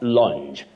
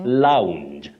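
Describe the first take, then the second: First: The vowel stays on one steady sound. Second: The vowel glides across two vowel sounds. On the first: The speaker calls it wrong. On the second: The speaker calls it right. "that is the glide on two vowel sounds"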